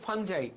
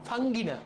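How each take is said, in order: First: The word ends with a j and eye sound. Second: The word ends with a hard g and ee. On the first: The speaker calls it right. "উচ্চারণটা হলো ফানজাই" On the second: The speaker calls it wrong.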